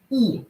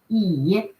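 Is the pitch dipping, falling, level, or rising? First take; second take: falling; dipping. First: The pitch falls sharply from high. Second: The pitch dips low then rises. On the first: "Falling tone" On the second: "Low, uh, falling rising tone"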